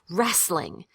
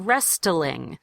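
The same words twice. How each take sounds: First: No T sound is pronounced in the middle. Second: A T sound is pronounced in the middle. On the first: The speaker calls it right. "The T is silent" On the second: The speaker calls it wrong. "You don't say wrestling"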